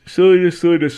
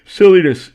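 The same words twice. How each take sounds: First: Loud, higher mock repeats. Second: Loud, high mock outburst; mock exclaim. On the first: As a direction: bounce the word again, louder. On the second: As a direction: shout it like a silly alert. Mocking Twitter's message.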